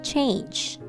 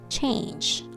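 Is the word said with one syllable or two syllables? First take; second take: one; one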